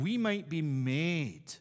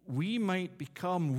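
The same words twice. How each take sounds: First: Slow, with made drawn out and weighted; slow down and lean into made; stress on made. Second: Said in the usual way. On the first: Shown as a demonstration. Preacher rereading the verse to stress made, slow and weighted. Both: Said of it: "I'm gonna emphasize the word".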